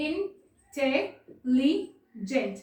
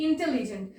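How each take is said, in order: First: "intelligent" split as in, tel, li, gent with pauses; "intelligent" in four drawn-out, detached beats; syllable by syllable. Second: Said in the usual way. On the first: Shown as a demonstration. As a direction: break "intelligent" slowly into four separate syllables. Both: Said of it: "divide হচ্ছে".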